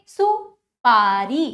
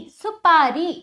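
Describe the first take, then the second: First: सुपारी slow and loud, split after सु; drawn-out classroom सुपारी; broken-up pronunciation. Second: सुपारी as one whole, projected word; loud, connected सुपारी for pupils; joined-up pronunciation. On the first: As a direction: stretch सुपारी syllable by syllable. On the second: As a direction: blend सुपारी without breaks, loudly. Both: Shown as a demonstration. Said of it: "तोड़कर जोड़कर उच्चारण".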